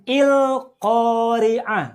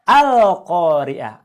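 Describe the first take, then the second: First: The word begins with an i vowel. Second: The word begins with an a vowel. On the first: The speaker calls it wrong. "bacanya bukan il-Qari'ah" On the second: The speaker calls it right. "Tapi bacalah Al-Qari'ah"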